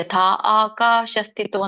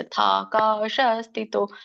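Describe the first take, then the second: First: The first two words are said as separate words. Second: The first two words run together as one. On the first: "ಯಥಾ ಆಕಾಶ ಸ್ಥಿತೋ ಅಂತ ಹೇಳ್ಬೋದು" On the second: "ಕೂಡಿನೂ ಹೇಳ್ಬೋದು"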